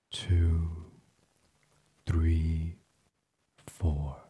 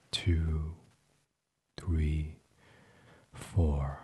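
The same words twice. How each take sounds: The two takes are said the same way.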